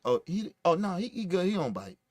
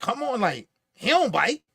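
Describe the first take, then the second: First: Soft, quieter friendly reassurance; gentle reassurance. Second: Brushing it off, he don't bite with a rising tone; dismissive. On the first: Shown as a demonstration. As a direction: say it kindly, winding down softly. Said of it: "It wasn't like". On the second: Retold or imitated. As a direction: wave off the worry like it's silly. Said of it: "It was the way he said it".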